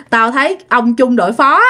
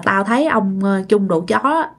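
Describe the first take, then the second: First: "phó" said cleanly with an "f" start; corrected pronunciation. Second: "phó" slips out as "chó", with a "ch" start; hesitate, then say "chó" in place of "phó"; slip of the tongue. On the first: Storyteller redoing the fumbled line, "phó" now with its "f" sound. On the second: Storyteller misspeaking the officer's rank, "chó" said for "phó". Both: Real, not acted. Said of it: "Tự nhiên bị liệu".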